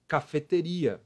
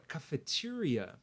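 First: Cafeteria said as in Portuguese, stress on RI; pronúncia portuguesa. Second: Cafeteria the English way, ca-fe-TI-ria; English pronunciation. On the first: Acted. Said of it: "Igualzinho o do português". (cafeteria com pronúncia do português) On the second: Shown as a demonstration. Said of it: "Bom, na verdade, a palavra". (cafeteria com pronúncia do inglês, ca-fe-TI-ria)

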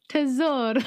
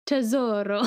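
First: Tesoro with Italian vowels and a tapped r, higher and louder; Italian accent. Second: Rolled Italian Tesoro; Italian accent. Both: Real, not acted. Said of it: "Why are you saying it like that?".

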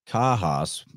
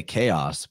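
First: "Kahos" as KAH-hoss, not KAY-oss; Greek-style pronunciation. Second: Said in the usual way. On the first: Shown as a demonstration. Host showing how chaos used to sound, "Kahos" said KAH-hoss. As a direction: open ah and audible H in "Kahos". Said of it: "it was more like Kahos". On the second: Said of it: "We say chaos".

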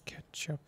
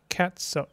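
First: Whispered Catsup, no voice at all. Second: Said in the usual way. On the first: Pretend. Streamer whispers Catsup to chat, playful whisper. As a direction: breathe the word Catsup out as a whisper.

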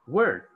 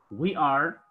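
First: "we're" as one falling syllable; forma abreviada. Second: Said in the usual way. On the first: Shown as a demonstration. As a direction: run we are together into "we're". ("we're" contraído en una sílaba)

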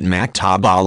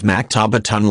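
First: Maktaba with the case ending dropped; maktaba, final -tun left off; short pronunciation. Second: Maktabatun with the ending -un sounded; maktabatun, every written ending pronounced; full pronunciation. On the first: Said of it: "in short pronunciation". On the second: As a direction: say maktabatun in full, final -tun included. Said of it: "in full pronunciation". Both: Shown as a demonstration.

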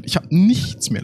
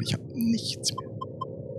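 First: Said in the usual way. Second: Breathy whisper, no voice. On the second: Shown as a demonstration. (flüsternd)

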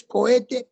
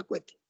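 First: "cohete" with three syllables, ko-E-te; correct pronunciation. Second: "cohete" squashed into two syllables, KWE-te; incorrect merged pronunciation. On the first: Teacher giving the word that exists, "cohete" clearly as co-e-te. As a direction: keep o and e apart in "cohete". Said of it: "La que existe es". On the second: Teacher quoting the word that doesn't exist, "cohete" as kwe-te. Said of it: "no existe la palabra". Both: Shown as a demonstration.

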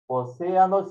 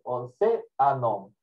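First: Said in the usual way. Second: "Océano" slowly split, leaning on "cé"; slow teaching "Océano", accented "cé" held apart; stress on the accented E. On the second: Shown as a demonstration. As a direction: sound out "Océano" with a pause after stressed "cé". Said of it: "siempre lleva tilde en la E".

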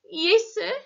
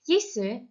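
First: High, tight croaked reply. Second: Said in the usual way. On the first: A narrator's reading. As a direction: force it out in a croak. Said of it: "he croaked".

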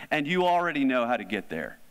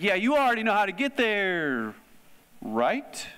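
First: Said in the usual way. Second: High, pointed teacher's hint, ending in a question; knowing teacher tease. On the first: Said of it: "That sounds a little provocative". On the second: Retold or imitated. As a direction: tease them like a teacher who knows they know. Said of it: "Like a teacher might do that".

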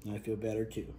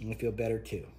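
No difference in how they are said.

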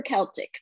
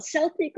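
First: Celtic starting with a K sound; hard-C Celtic. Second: Celtic starting with an S sound; soft-C Celtic. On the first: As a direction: say Celtic as "KEL-tik". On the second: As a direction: say Celtic as "SEL-tik". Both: Shown as a demonstration. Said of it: "Do you call it Celtic or Celtic?".

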